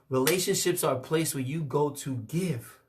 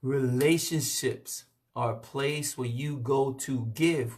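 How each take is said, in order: First: It is said at a normal speed. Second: It is said very slowly.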